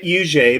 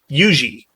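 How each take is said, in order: First: The name is said as the speaker's pronunciation. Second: The name is said as in South Carolina. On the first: This is how the man himself said his name. "I pronounce that U J because I've read that that is how he himself pronounced his own name" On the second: This is how the name is usually said locally. "in South Carolina that is usually pronounced Yuji"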